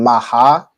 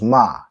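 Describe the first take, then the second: First: The word is said with two syllables. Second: The word is said with one syllable. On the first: The speaker calls it wrong. "instead of saying maha" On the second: The speaker calls it right. "So it's just ma"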